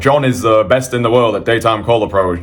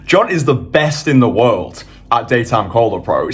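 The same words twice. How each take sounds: First: It is said in a flat, monotone voice. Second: It is said with lively, energetic feeling. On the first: The speaker calls it wrong. "don't just be speaking all like monotone" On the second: The speaker calls it right. "you want to say it with feeling"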